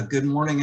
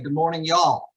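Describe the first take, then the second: First: Said in the usual way. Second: A token Southern twang for the greeting, slightly raised; perfunctory Southern accent. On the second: Shown as a demonstration. Keynote speaker greets the Ohio audience with a token Southern accent. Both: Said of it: "accent and welcome by saying".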